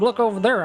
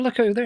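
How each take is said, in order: First: It is said in a put-on redneck accent. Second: It is said in the speaker's ordinary voice.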